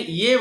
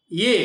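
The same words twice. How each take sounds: First: ইয়ে stated as "i-ye", falling; ইয়ে said as "i-ye", never "je"; ইয়ে spoken "i-ye" in the explanation; Sanskrit pronunciation. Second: ইয়ে said as two sounds "i-ye", not as "je"; ইয়ে pronounced "i-ye", rising; Sanskrit pronunciation. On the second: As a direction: give ইয়ে its antastha ya, "i-ye". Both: Shown as a demonstration. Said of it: "এখানে ইয়ে বলতে হবে".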